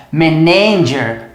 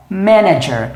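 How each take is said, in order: First: Manager said slowly with the stress wrongly on na; the common mistake: manager stressed on the middle syllable. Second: Manager said slowly with the stress on ma; MAN-ager, stress on the first syllable; correct stress. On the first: Teacher imitating students' wrong stress on manager. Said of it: "Muita gente fala isso aqui como manager". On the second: Teacher giving students the correct stress on manager. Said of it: "mas na verdade é manager". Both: Shown as a demonstration.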